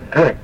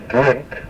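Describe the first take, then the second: First: Drink with a nasalized N before the k. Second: Said in the usual way. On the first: Shown as a demonstration. Teacher demonstrating the nasal N sound in drink. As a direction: let the N in drink ring through the nose. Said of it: "we get that sound in the word". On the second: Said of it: "nobody ever says drink".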